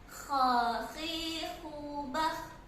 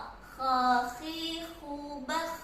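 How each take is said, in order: Both takes have the same delivery.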